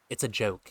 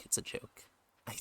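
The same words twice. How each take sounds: First: Said in the usual way. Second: Whispered aside; breathy, voiceless whisper. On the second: Real, not acted. Repeats disclaimer whispered.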